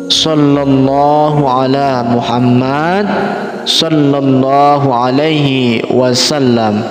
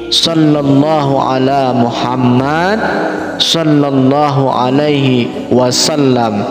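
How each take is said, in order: No difference in how they are said.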